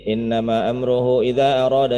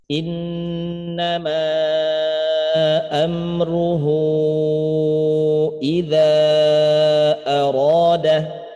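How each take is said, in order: First: The long vowels are cut short and rushed. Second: The long vowels are held long and slowly. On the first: The speaker calls it wrong. "pengennya rada cepat, ya baca gini" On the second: The speaker calls it right. "dibaca dengan panjang kadar empat harokat"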